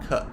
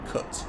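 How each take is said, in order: First: The final T is not pronounced. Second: The final T is clearly pronounced. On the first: "but Americans don't. I think Americans say something like cut" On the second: "British people pronounce the T at the end"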